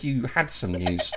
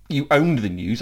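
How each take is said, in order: First: "had" picked out against the disputed word; slower, with emphatic "had"; stress on had. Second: "owned" picked out as the disputed word; emphatic "owned", setting up a correction; stress on owned. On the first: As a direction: lean on "had" as the correction. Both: Real, not acted. Correcting what was said, contrasted word.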